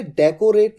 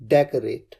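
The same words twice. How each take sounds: First: डेकोरेट said in full as de-ko-ret, every syllable sounded, the way to avoid; wrong pronunciation. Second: डेकोरेट said short as dek-ret, the middle o dropped, with a falling close; correct pronunciation. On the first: Teacher warns students against saying डेकोरेट as de-ko-ret. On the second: Teacher gives students the right way to say डेकोरेट: dek-ret. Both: Shown as a demonstration. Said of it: "इसे डेकोरेट नहीं कहना है".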